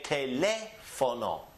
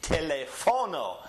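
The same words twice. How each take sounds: First: The stress falls on the second syllable, le. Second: The stress falls on a syllable other than the second. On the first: The speaker calls it right. "it has an accent on top of the le, so we must raise our voice here" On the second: The speaker calls it wrong. "new students always want to say teléfono"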